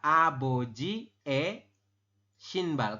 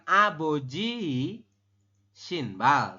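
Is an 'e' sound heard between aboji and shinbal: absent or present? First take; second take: present; absent. First: An 'e' vowel is heard between the words. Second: No vowel is heard between the two words. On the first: The speaker calls it right. "tapi dibacanya adalah aboji e shinbal" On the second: The speaker calls it wrong. "Kita membacanya bukan aboji shinbal"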